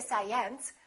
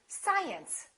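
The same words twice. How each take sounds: First: The stress is on the second syllable. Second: The stress is on the first syllable. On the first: The speaker calls it wrong. "we don't say science" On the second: The speaker calls it right. "it's the first one. It would be science"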